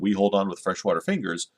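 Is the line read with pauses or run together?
run together. It is read straight through without pauses.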